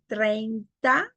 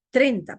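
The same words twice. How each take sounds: First: Said in the usual way. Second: "Treinta" said as trenta; one e only in "Treinta"; diphthong reduced. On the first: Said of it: "En vez de decir treinta". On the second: Shown as a demonstration. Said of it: "queda solamente una vocal".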